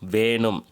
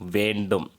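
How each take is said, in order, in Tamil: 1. இந்தச் சொல் பேச்சு வழக்கில் சொல்லப்படுகிறது. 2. இந்தச் சொல் எழுத்து வழக்கில் சொல்லப்படுகிறது. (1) "பேச்சு வழக்கு" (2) "எழுத்து வழக்கு"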